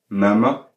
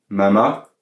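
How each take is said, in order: First: "mama" stressed on the first A; first syllable strong in "mama". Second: "mama" stressed on the final A; stress on second syllable. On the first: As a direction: say "mama" as MA-ma, second A light. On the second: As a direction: say "mama" as ma-MA, drawn out. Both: Shown as a demonstration. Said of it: "avec un accent sur le deuxième A".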